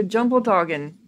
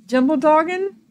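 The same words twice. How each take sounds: First: Said in the usual way. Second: Higher, questioning rise; puzzled echo. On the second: Real, not acted. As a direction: repeat it as a baffled question. Queries the odd item name.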